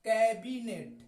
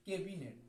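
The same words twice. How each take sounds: First: Louder model of कैबिनेट, open first vowel; correct pronunciation. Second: Softer, offhand misreading of कैबिनेट starting 'ke'; wrong pronunciation. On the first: Shown as a demonstration. Teacher gives students the right way, correct pronunciation. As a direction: say कैबिनेट with an open 'kae', as in cat. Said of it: "सही उच्चारण है". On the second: Retold or imitated. Teacher repeats the common misreading of cabinet, wrong pronunciation. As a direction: say कैबिनेट as 'kay-binet', with a closed first vowel. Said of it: "गलत उच्चारण है".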